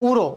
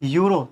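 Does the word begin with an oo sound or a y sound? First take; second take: oo sound; y sound. First: The word starts with a plain oo vowel. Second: The word starts with a y sound. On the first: The speaker calls it wrong. "देखो इसको बच्चे गलत pronounce करते हैं" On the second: The speaker calls it right. "ये यूरो है"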